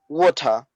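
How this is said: It is said in a Trinidadian accent. "in Trinidad, we say water"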